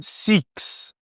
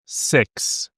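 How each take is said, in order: First: The vowel sounds like a long 'ee'. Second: The vowel is a short, lax 'i'. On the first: The speaker calls it wrong. "não é six, não é o som de I" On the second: The speaker calls it right. "É o som de C"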